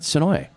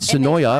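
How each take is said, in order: First: The name ends without the extra final syllable. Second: The name ends with an extra final syllable. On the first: The speaker calls it right. "It's Sonoy" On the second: The speaker calls it wrong. "Half of our listeners call it Sonoya"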